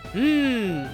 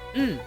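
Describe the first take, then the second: First: The sound is drawn out longer. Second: The sound is short. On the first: It means no. "It's literally the same sound, just extended" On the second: It means yes. "the Japanese slang word for yes is mm"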